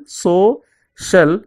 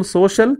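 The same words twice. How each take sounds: First: "so, shall" as two separate beats; split into syllables. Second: Said in the usual way. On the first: Shown as a demonstration. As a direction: pause between "so" and "shall", the halves of social. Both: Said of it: "divide the words into syllables".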